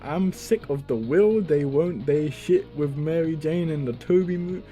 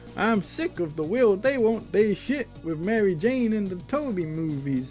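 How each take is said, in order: First: It is read in his normal voice. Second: It is read in a Goku impression voice.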